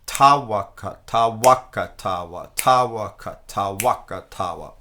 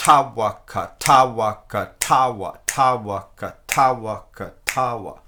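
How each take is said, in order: First: Tawaka, tawaka, tawa with ta punched loud; emphasis on ta. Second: Tawaka, tawaka, tawa with the wa punched loud; emphasis on wa. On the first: Teacher offering students the first accent choice, loud ta stress. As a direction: hit the ta of each tawaka hard. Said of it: "Do you want the emphasis to be". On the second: Teacher offering students the second accent choice, loud wa stress. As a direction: lean hard into the wa each time. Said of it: "Or do you want it to be". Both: Shown as a demonstration.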